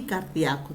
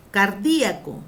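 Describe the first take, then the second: First: "cardíaco" said car-DIA-co, gliding onto the A; stress on DIA. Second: "Cardíaco" punched on DI, car-DÍ-a-co; stress on DI. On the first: Teacher adding second accepted form, "cardíaco" as car-DIA-co. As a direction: lower "cardíaco", with DIA as one stressed syllable. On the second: Teacher giving first accepted form, "Cardíaco" as car-DÍ-a-co. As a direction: hit DÍ loudly in "Cardíaco". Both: Shown as a demonstration. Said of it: "también se dice".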